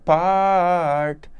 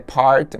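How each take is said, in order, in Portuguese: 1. A palavra é prolongada e alongada. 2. A palavra é dita curta e simples. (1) "mas na canção ele prolonga" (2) "A pronúncia de part é part"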